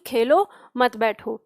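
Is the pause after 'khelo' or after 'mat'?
after khelo. The pause comes after 'khelo'.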